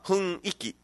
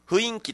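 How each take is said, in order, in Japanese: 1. 音は普通の順番です。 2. 音が二つ入れ替わっています。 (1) "本当は、まあ、雰囲気とか唯一が正しいのに" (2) "今雰囲気とか、うん、唯一みたいな発音してる人多くないですか"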